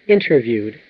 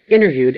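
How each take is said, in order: First: It uses the fuller, more careful pronunciation. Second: It uses the common casual American pronunciation. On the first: "as opposed to" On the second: "That's a very common pronunciation in American English"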